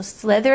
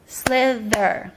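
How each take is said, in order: First: Said in the usual way. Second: "Slither" slowly split into two beats; two syllable pops. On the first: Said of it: "slither is one word". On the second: Shown as a demonstration. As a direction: sound out "Slither" as slith, then er. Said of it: "two pops of sound".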